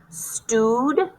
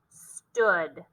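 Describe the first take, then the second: First: The vowel is a long oo sound. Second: The vowel is a short uh sound. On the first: The speaker calls it wrong. "Let's try it with the oo sound" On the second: The speaker calls it right. "Try it with the uh sound"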